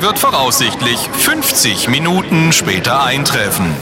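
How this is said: It is droned in a choppy, listless way. The announcer does not care about the message. "Leiere, abgehackt und lustlos, einen Text runter"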